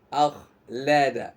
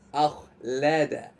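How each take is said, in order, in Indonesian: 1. Bunyi kh tebal, mulut terbuka lebar. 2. Bunyi kh tebal, mulut terbuka lebar.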